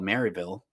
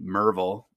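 First: The town name is said the outsider way. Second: The town name is said the local way. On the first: The speaker is not from the area. The speaker calls it wrong. "If you say Maryville, they know you're not from around here" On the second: The speaker is from the area. The speaker calls it right. "That's how you say it around here"

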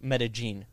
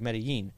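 First: The double L is said like a hard J. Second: The double L has a standard Spanish sound. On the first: "they pronounce double L's like a hard J" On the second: "If you pronounce it like Spanish, you know, with the double L's"

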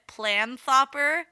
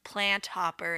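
First: The t and h blend into one th sound. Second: The t and h are sounded separately. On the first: The speaker calls it wrong. "I pronounced it planthopper, because it's like the T and the H are next to each other" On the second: The speaker calls it right. "it's probably pronounced plant hopper"

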